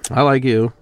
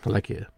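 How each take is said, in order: First: Louder, punchy I like you; emphatic inflection. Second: Quieter, understated I like you; soft inflection. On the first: Contrasting ways of saying I like you, loudly. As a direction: say it out loud and forward. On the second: Contrasting ways of saying I like you, softly. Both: Shown as a demonstration. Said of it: "English language is a lot about inflection".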